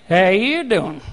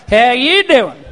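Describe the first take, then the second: First: Low slow flirty "How you doing?"; smooth lady's-man drawl; Joey Tribbiani pickup line. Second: "you" leaned on, low and drawn out; Joey-style emphasis; stress on you. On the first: Retold or imitated. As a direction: drop deep and flirt. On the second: Shown as a demonstration. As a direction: flirt on "you". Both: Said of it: "There's an emphasis on the".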